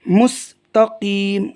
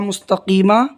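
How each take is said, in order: First: The word ends on the m sound. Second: The word ends with an added a vowel. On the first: The reader stops here. "जब हम रुकेंगे तो हो जाएगा मुस्तकीम" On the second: The reading continues without stopping. "था मुस्तकीमा"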